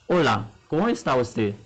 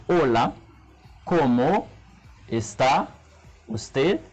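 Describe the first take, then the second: First: Said in the usual way. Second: ¿cómo está usted? with a long pause after each word; halting learner's ¿cómo está usted?, one word at a time; slow, word by word. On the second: Shown as a demonstration. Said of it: "pou m pale pran tan".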